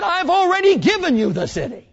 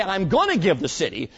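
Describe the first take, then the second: First: High, loud proclamation of already; proclaiming God. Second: Said in the usual way. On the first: Retold or imitated. God telling Joshua the city is given, loud high proclamation. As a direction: ring it out as God's triumphant word. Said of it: "He said". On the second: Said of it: "He didn't say".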